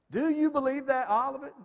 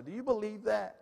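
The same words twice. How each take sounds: First: Pressing louder. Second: Said in the usual way. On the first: Acted. Preacher repeats question louder, higher.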